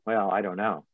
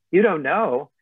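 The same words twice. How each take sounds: First: Said in the usual way. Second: Higher, louder disbelieving question; incredulous echo. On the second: Retold or imitated. Coach echoes client's doubt, incredulous and louder. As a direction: throw it back at them in disbelief.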